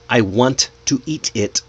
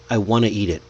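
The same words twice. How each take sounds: First: Each word is said separately and robotically. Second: The words are linked together smoothly. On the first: The speaker calls it wrong. "See how robotic that sounds?" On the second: The speaker calls it right. "Just say something"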